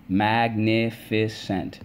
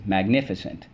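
First: "Magnificent" stretched slowly as mag-nif-i-cent; syllable by syllable. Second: Said in the usual way. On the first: Shown as a demonstration. Teacher leading the class, slowly syllable by syllable. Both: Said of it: "let's go".

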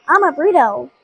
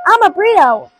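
First: Said in the usual way. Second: High, loud playful sing-song; silly excited. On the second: Pretend. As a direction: belt it out like a silly game.

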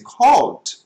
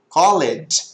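First: "called" said as one syllable, kɔld; native called. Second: "called" said as two syllables, kɔ-led; wrong spelled-out called. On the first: Teacher showing students how natives say "called", one syllable. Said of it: "quando falarem com você called". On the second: Teacher showing students the mistaken "called", two syllables. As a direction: sound out the e in "called" like a Brazilian learner. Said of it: "se você falar called". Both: Shown as a demonstration.

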